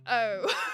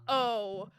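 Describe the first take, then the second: First: The O is twisted to sound British. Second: The O sounds plain and American. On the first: "I said O like O" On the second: "not O like a normal fucking American"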